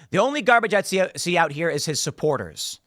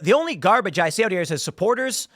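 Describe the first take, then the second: First: The voice falls at the end. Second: The voice rises at the end.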